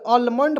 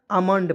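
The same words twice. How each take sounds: First: अलमंड with a clear l; wrong reading. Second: आमंड with a long आ and silent l; right reading. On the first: Teacher showing the mistaken अलमंड. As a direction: say अलमंड sounding the l. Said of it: "बहुत लोग अलमंड पढ़ लेने लगे". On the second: Teacher giving students the correct आमंड. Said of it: "आमंड पढ़ेंगे". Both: Shown as a demonstration.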